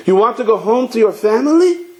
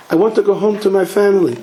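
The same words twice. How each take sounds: First: High voice climbing steeply on "family"; incredulous echo question. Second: Higher voice, falling end on "family"; insistent statement. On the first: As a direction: throw it back, rising high through "family". Rebbe echoes it as a question. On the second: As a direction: plead your case, settling down on "family". Visitor's statement, echoed as a question. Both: Acted.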